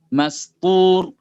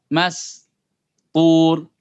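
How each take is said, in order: First: The two syllables are joined without a pause. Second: The two syllables are separated by a pause. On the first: "semakin lama dipercepat" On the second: "dibuat jeda seperti itu"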